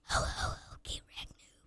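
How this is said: It is whispered.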